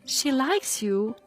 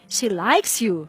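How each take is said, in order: First: The question tag sounds doubtful, really asking. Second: The question tag sounds certain, seeking agreement. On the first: The speaker is unsure and is really asking. "you have a doubt, you are not very sure about it" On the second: The speaker is sure and wants agreement. "you are sure about this opinion"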